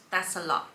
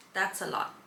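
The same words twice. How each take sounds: The two takes are said the same way.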